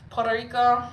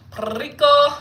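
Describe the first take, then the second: First: "Puerto Rico" higher and louder, with a light r; Spanish-style Puerto Rico. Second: "Puerto Rico" high and very loud, long rolled r on Rico. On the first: Calling out to viewers, Spanish-style "Puerto Rico". Two takes, second more emphatic. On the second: Calling out to viewers, exuberant rolled-r "Puerto Rico". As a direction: belt "Puerto Rico" with a big trilled r. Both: Pretend.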